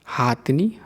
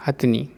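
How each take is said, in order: First: हाथनी with a long हा; the mistaken हाथनी; wrong form. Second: हथनी with a short ह; the proper हथनी; correct form. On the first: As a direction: say हाथनी, first vowel long. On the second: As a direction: say हथनी, first vowel short. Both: Shown as a demonstration. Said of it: "अशुद्ध और शुद्ध रूप".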